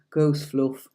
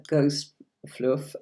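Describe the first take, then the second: First: A light Yorkshire lilt on Ghost Fluff, "Ghost" with a short, flat o; Yorkshire accent. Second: Said in the usual way. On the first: Shown as a demonstration. Tarot teacher shows viewers her Yorkshire roots, in a light Yorkshire accent. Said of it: "I am from Yorkshire, and so we'd say". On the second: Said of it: "so we'd say, "Ghost Fluff".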